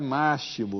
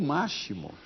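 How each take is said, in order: First: The x sounds like s. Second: The x sounds like sh. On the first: The speaker calls it right. "o X soa como C" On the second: The speaker calls it wrong. "X não é igual a C H?"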